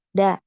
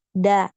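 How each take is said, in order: First: The sound is cut short and abrupt. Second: The same.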